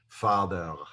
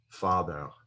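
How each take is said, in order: First: It ends with a throaty Hebrew-style R sound. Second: The same.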